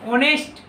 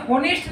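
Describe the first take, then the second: First: ऑनेस्ट with a silent h; correct pronunciation. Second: होनेस्ट with the initial h sounded; wrong pronunciation. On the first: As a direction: start ऑनेस्ट straight on the o vowel. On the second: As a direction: say होनेस्ट starting on an audible ह. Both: Shown as a demonstration. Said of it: "इसे होनेस्ट नहीं पढ़ते".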